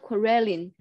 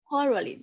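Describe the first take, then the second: First: The stress is not on the first syllable. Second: The stress is on the first syllable. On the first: The speaker calls it wrong. "Not quarreling" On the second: The speaker calls it right. "the stress is on the first syllable"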